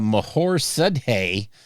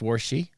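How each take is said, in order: First: The name starts with an M sound. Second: The name starts with a W sound. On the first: The speaker calls it wrong. "how does M H O R get pronounced war?" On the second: The speaker calls it right. "you mean it's pronounced Warshi?"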